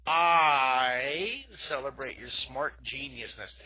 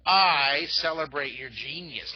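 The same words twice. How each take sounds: First: Loud, slow, grand praise; celebratory cheer. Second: Loud, slow, proud praise; celebratory cheer. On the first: Art teacher cheering the kids again, bigger. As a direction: proclaim it slowly like a toast. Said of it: "Look at, ready?". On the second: Art teacher loudly praising the kids' genius. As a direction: cheer them on, drawing each word out. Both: Shown as a demonstration.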